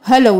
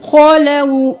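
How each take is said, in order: First: The first consonant is light and thin. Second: The first consonant is heavy and full-mouthed. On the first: The speaker calls it wrong. "नहीं करना" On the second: The speaker calls it right. "खौ मोटा मुंह भर के"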